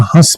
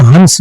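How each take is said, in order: First: हंस with the n only nasalised, "hãs"; हंस said with a nasal vowel and no n; correct nasal pronunciation. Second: हंस with a full, clear n sound; हंस said as "hans", the n sounded out; wrong pronunciation. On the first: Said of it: "क्योंकि ये है नून गुन्ना". (हंस को नून गुन्ना से, नाक से बोलें) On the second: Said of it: "इसको हंस नहीं पढ़ेंगे". (हंस में पूरा न बोलकर, ग़लत उच्चारण) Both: Shown as a demonstration.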